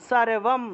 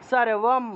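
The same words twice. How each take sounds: Both takes have the same delivery.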